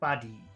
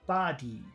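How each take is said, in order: First: The first sound is short, the second long. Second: Both sounds are held long. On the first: "If we did short long" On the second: "If we made them both long"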